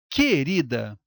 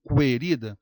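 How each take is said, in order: First: The u is silent, like ke-rida. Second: The u is sounded, like kwe-rida. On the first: The speaker calls it right. "eu falo querida" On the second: The speaker calls it wrong. "Eu não falo querida"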